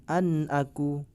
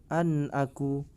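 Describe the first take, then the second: The two takes are said the same way.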